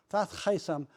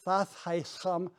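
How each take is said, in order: First: Said in the usual way. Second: Thasheisham said slowly, each syllable stretched; drawn-out demo. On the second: Shown as a demonstration. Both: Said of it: "You d-, draw it out".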